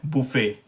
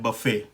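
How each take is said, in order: First: बुफे as boo-FAY, rounded oo; French pronunciation. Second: बफे as buh-FAY, short uh first; American pronunciation. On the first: Teacher contrasts French and American buffet, French pronunciation. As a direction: say बुफे slowly with a rounded first vowel. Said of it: "French version इसका कह रहे". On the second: Teacher contrasts French and American buffet, American pronunciation. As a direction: say बफे with an unrounded first vowel. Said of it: "American pronunciation में ये है". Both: Shown as a demonstration.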